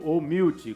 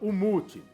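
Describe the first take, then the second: First: The word is pronounced with English sounds. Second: The word is pronounced with Portuguese sounds.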